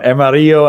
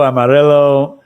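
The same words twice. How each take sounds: First: Amarillo with the double L as a Y; Amarillo, higher, L's softened to a glide; Spanish pronunciation. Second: Amarillo with a plain English L; Texan mispronunciation. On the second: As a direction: say Amarillo anglicized, "-rillo" like "pillow". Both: Shown as a demonstration. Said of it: "they mispronounce every Mexican thing".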